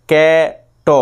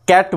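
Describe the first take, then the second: First: ক্যাট cut into ক্যা, pause, then a separate ট; wrongly split word. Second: Said in the usual way. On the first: Shown as a demonstration. Teacher shows how nobody says it, ক্যাট split in two. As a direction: break ক্যাট before its last sound, voicing ট alone. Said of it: "এরকমভাবে বলি না তো". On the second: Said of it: "মাঝখানে তো কোথাও থামা যায় না".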